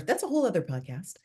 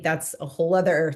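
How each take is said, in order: First: Tuck the remark away in a whisper; whispered aside. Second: Said in the usual way. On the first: Real, not acted. Guest whispering a side note to the host. Podcast aside said under breath.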